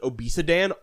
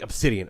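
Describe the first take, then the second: First: The letters are jumbled, sounding like 'obesidan'. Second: It is said carefully as 'obsidian'. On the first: It comes out this way when reading without thinking. The speaker calls it wrong. "I pronounce it obesidan always" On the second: It takes deliberate effort to say it this way. The speaker calls it right. "I have to physically be like obsidian"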